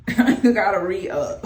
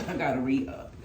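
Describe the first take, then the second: First: Laughing it out loud and louder; a real laugh breaking through the words. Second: Said in the usual way. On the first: Real, not acted. Vlogger laughing to viewers about her near-empty oil bottle.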